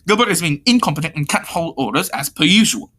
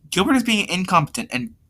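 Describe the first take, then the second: First: Firmer take on an annoyed complainer; lightly voiced, exasperated bossy character; corrected character voice. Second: Higher-pitched voice, mistakenly used; lighter, higher take on a complaint; pitched-up complaint in another character's voice; wrong character voice. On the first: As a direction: complain firmly in the character's proper voice. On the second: Acted. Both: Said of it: "sorry, wrong voice".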